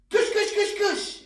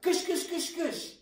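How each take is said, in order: First: It is yelled very loudly. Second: It is said weakly and quietly.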